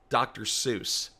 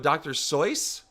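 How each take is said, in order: First: Seuss rhymes with goose. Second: Seuss rhymes with voice. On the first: The speaker calls it wrong. "the pronunciation is not doctor Seuss" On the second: The speaker calls it right. "Like Royce, but with an S"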